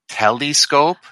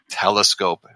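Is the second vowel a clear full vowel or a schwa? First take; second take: full vowel; schwa. First: The second vowel is a clear full vowel. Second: The second vowel is a weak schwa. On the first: A hint about the spelling is being sought. "overpronounce the sound of the vowel that is a schwa ... fishing for the E" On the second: No hint about the spelling is given. "We just stick with the schwa sound"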